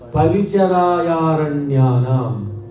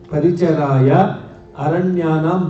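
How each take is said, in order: First: The two words are merged into one. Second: The two words are said separately. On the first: "becomes paricharayaranyanam" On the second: "Paricharaya aranyanam becomes"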